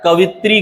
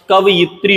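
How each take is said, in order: First: कवित्री in three syllables, ka-vit-ree; wrong pronunciation. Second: कवयित्री with a yi, ka-va-yit-ree; correct pronunciation. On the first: Teacher showing the mistake, कवित्री said as ka-vit-ree. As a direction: drop the yi, say कवित्री. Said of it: "गलत है". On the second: Teacher correcting it, कवयित्री said as ka-va-yit-ree. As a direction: sound the yi in कवयित्री. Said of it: "होता है". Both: Shown as a demonstration.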